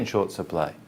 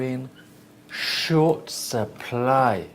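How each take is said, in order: First: It runs together with no pause. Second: There is a pause before 'short supply'. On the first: "normally you say in short supply" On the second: "if you split your chunk"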